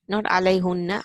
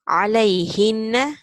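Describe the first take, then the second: First: The vowel after the h is u. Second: The vowel after the h is i. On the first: The speaker calls it wrong. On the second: The speaker calls it right.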